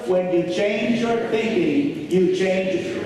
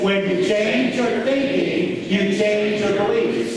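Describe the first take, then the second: First: It is said with plain, lower energy. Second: It is said with more enthusiasm and energy.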